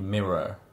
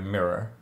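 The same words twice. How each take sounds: First: It has standard British vowels with weak r sounds. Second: It has West Country vowels with strong r sounds. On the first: "Where it's probably mirror" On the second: "My ers, because I'm from the West Country, are a little more prominent"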